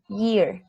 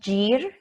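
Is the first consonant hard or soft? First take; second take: soft; hard. First: The first y sound is soft and light. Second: The first y sound is hard, almost like j. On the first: The speaker calls it right. "the Y is soft" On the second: The speaker calls it wrong. "Not year, like llanta"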